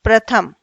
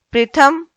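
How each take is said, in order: First: प्रथम said cleanly as pra-tham, a short a after pr; प्रथम with a clear short a, firmly; correct pronunciation. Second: प्रथम with an i sound after pr, like prithham; प्रथम said as the mistaken pri-tham form; wrong spelling said aloud. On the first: Teacher giving students the correct प्रथम, clearly pronounced. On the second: Teacher showing students the wrong form of प्रथम, mispronounced. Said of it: "प्रथम नहीं". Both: Shown as a demonstration.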